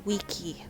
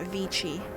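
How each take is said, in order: First: It starts with a W and has a K sound. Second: It starts with a V and has a ch sound. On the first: This is how ancient Romans said it. The speaker calls it right. "So it'd be wiki" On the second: This is the later church pronunciation. The speaker calls it wrong. "not vici"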